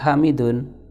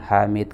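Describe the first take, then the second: First: The name ends with a vowel plus n. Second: The name ends on a bare consonant. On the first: This is the full form of the name. "Sebenarnya namanya adalah Hamidun" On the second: The name is read with a pause at the end. "kita baca dengan waqaf"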